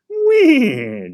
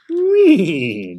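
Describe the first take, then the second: First: Much higher, loud horse whinny; a shrieking neigh, full horse. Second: High, loud horse whinny. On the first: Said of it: "Joey repeated". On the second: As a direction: neigh it out like a real horse. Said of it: "Joey whinnied". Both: A narrator's reading.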